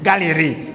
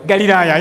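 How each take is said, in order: First: "Galilee" in its English form, ending in "lee"; English pronunciation. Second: "Galilee" said in its local form, Galilaya; local pronunciation. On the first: Speaker translating the place name, English pronunciation of "Galilee". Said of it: "in English". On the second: Speaker naming where Jesus went, local pronunciation of "Galilee". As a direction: say "Galilee" as ga-li-LA-ya, loudly. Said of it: "Galilee in English". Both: Shown as a demonstration.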